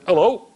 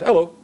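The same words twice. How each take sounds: First: Put-on brief Manchester-accented greeting with a rise. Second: Said in the usual way. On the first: Stranger greeting his seatmate on the plane, Manchester accent. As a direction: imitate a Manchester man saying hello. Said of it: "in a Manchester accent". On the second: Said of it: "And my son said".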